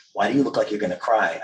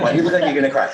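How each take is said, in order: First: Attempted Brooklyn accent, barely there; a hint of Brooklyn kid; half-hearted Brooklyn accent. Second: Put-on higher, louder Brooklyn kid; blunt mock-Brooklyn question; Brooklyn accent. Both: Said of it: "I can't do the Brooklyn accent".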